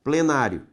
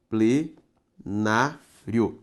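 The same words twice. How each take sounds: First: Said in the usual way. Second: Plenário drawn out very slowly, syllable by syllable; teacher breaking the word apart for students; syllables pulled apart. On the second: Shown as a demonstration. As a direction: split plenário into slow syllables. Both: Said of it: "Separe comigo".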